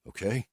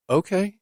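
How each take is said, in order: First: Said in the usual way. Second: Higher, surprised woman's okay; surprised reply to his apology. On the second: Acted. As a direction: caught off guard, she answers up high. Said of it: "She sounds surprised".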